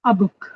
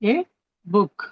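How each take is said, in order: First: The article is said as a short 'uh'. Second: The article is said as a full 'ay'. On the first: The speaker calls it right. "మనం ఇలా practice చేద్దాం" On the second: The speaker calls it wrong. "ఏ ఏ book ఇలా నేర్చుకున్నాం"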